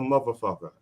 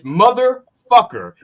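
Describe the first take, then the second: First: The 'th' and final 'er' sounds are dropped. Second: The 'th' and final 'er' sounds are clear. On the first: The speaker calls it wrong. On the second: The speaker calls it right.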